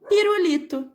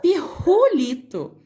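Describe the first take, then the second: First: The middle r is a soft, light tap. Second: The middle r is harsh and scrapes the throat. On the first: The speaker calls it right. "sonzinho mais fraco" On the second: The speaker calls it wrong. "Se fossem dois R's aqui, ficaria pirulito. Ficaria estranho"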